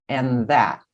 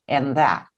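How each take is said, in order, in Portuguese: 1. As duas palavras se juntam em um único som. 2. As duas palavras se juntam em um único som.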